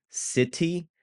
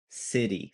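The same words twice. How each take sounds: First: "City" with a crisp T, higher and rising; careful T. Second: "city" with a tapped D sound, falling and softer. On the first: Teacher contrasts T with D, carefully said "City". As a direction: enunciate the T in "City". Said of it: "more of a D sound". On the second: Teacher contrasts T with D, tapped "city". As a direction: turn the T in "city" to a quick D. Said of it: "it's more of a D sound". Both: Shown as a demonstration.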